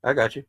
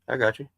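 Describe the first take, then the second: No difference in how they are said.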